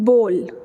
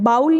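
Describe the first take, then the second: First: The vowel sounds like 'oh'. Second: The vowel sounds like 'ow'. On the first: The speaker calls it right. "It will be बोल" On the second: The speaker calls it wrong. "बाउल नहीं होगा"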